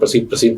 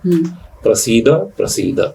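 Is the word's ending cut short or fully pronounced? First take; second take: cut short; full. First: The final syllable is cut short, only half said. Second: The final syllable is fully pronounced, nothing dropped. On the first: The speaker calls it wrong. "आधा ही बोल देते हैं" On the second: The speaker calls it right. "पूरा बोलना है"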